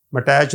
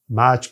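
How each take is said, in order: First: مٹیچ with a separate "t" sounded in it; wrong pronunciation. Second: میچ as one syllable ending in "ch"; correct pronunciation. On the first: Teacher showing what we don't say, مٹیچ with the "t" pronounced. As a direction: break the word up with a "t", مٹیچ. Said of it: "مٹیچ نہیں کہتے". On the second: Teacher giving what we do say, میچ with a single final "ch". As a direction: say میچ with no separate "t". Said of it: "میچ کہتے ہیں". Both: Shown as a demonstration.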